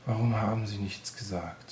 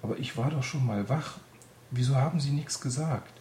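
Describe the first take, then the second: First: Sighing through tears. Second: Higher, louder accusing question; angry reproach. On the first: Despairing Anne asking Greta again, a tearful sigh. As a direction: let the anger drain into a tearful sigh. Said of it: "seufzte sie unter Tränen". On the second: Anne angrily confronting Greta, higher and louder. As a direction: demand why she was not told. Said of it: "Anne war wütend". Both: A narrator's reading.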